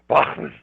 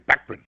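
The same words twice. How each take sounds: First: It is pronounced the German way. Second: It is pronounced the English way. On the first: "In Germany, they say" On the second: "In England, they say"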